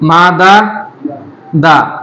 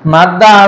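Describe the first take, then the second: First: The two d sounds are separated by a vowel. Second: The two d sounds merge into one doubled d. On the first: This is the original underlying form. "আসল" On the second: This is the form actually used. "মাদ্দা শব্দটার"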